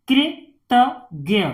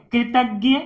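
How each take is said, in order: First: "कृतज्ञ" in three separated parts; syllable by syllable. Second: Said in the usual way. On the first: Shown as a demonstration. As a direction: break "कृतज्ञ" up with pauses. Teacher sounds out, then blends. ("कृतज्ञ" को तोड़कर पढ़ना)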